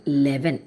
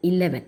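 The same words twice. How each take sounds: First: "eleven" without its first vowel, as leven; wrong pronunciation. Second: "eleven" with the opening i vowel sounded; correct pronunciation. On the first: Teacher shows the mistake, "eleven" cut to leven. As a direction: drop the opening e of "eleven", start on L. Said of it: "Eleven എന്ന് പറയരുത്". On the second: Teacher models for students, "eleven" beginning on its first vowel. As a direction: start "eleven" on a clear vowel, i-LEV-en. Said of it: "We are saying". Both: Shown as a demonstration.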